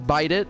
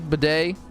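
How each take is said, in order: First: The word is said like 'bite it', ending in 't'. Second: The word ends in an open 'ay' vowel. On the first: "He says bite it" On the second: "You know how Singer pronounces that word"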